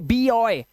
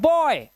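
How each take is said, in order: First: The word is split into two syllables. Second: The word is said as one syllable. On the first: The speaker calls it wrong. "इसे हम बी ऑय नहीं पढ़ते" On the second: The speaker calls it right. "इसे हम पढ़ते हैं बॉय"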